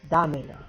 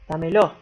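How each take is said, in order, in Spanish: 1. El acento está en la primera sílaba. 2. El acento está en la segunda sílaba. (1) "Pero es dámelo" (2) "En el Río de la Plata pronunciamos mal muchísimas palabras, ¿sí? Le ponemos énfasis"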